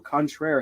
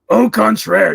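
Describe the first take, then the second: First: It is said in his normal own voice. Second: It is said in a Grunkle Stan impression.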